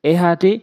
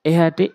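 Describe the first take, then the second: No difference in how they are said.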